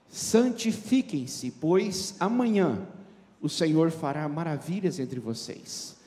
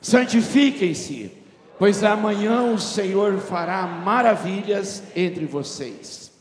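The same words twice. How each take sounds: First: It is read at a normal volume. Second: It is read much more loudly.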